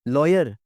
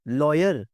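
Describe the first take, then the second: First: The first vowel is a rounded 'aw'. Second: The first vowel is a rounded 'aw'.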